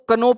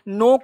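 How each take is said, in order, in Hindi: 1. यह शब्द 'k' की आवाज़ से शुरू होता है। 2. यह शब्द 'n' की आवाज़ से शुरू होता है। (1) "नो को कनो पढ़ लेते हैं" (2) "नो का मतलब जानना"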